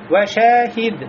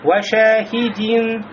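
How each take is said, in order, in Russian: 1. Слово заканчивается без звука -in. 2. Слово заканчивается звуком -in.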